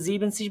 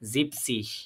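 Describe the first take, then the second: First: The first part keeps its full two syllables. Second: The first part is cut to one syllable. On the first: The speaker calls it wrong. "এখানে আমরা কিন্তু জিবেন সিস বলিনি।" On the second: The speaker calls it right. "আমরা বলবো কি?"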